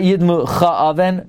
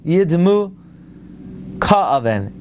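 First: The second word begins with a soft ch sound. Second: The second word begins with a hard k sound. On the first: The speaker calls it wrong. "not yidmu cha'aven" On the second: The speaker calls it right. "Yidmu ka'aven hakaf degusha"

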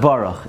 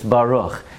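First: The word is rushed and slurred. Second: The word is said slowly and carefully. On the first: The speaker calls it wrong. "every single word was mispronounced" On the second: The speaker calls it right. "slow enough that you're actually saying the words"

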